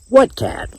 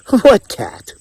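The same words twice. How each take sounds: First: It is said in a plain, neutral tone. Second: It is said with a mocking, chuckling tone.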